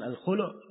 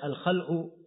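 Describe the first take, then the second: First: The vowel after kh is a u sound. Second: The vowel after kh is an a sound. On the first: It is the name for the separation. "di dhamma kha-nya" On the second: It means pulled out or removed. "di fathah kha-nya"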